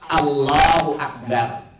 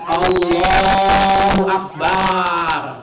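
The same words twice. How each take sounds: First: The vowels in Akbar are kept short. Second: A vowel in Akbar is stretched out long. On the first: The speaker calls it right. "Pada Akbar tidak ada satu huruf mad pun padanya" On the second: The speaker calls it wrong. "Jangan sampai ada mengucapkan"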